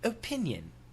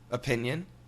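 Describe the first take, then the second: First: Imitated British accent. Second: Relaxed, everyday American accent. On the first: "we'll guess at the British pronunciation" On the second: "Typical American pronunciation"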